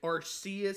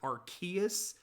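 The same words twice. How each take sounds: First: The name is said in a nonstandard way. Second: The name is said the official way. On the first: The speaker calls it right. "that is how I pronounce it. I think Arceus sounds better" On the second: The speaker calls it wrong. "I don't care that it's not the canon pronunciation"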